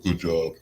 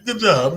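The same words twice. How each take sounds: First: It is said flatly, without enthusiasm. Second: It is said warmly, with enthusiasm.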